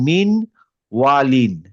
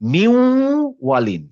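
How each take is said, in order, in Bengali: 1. w-এর আগে n উচ্চারণটি রাখা হয়। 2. n উচ্চারণটি মিশে একটি নাসিক w উচ্চারণে পরিণত হয়। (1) "যেমন এখানে হচ্ছে মিন ওয়ালিন" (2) "তাহলে এটা হবে যে মিউ ওয়ালিন"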